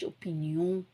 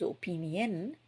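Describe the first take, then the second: First: It is pronounced the French way. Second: It is pronounced the English way. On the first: "but in French opinion" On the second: "So in English it's opinion"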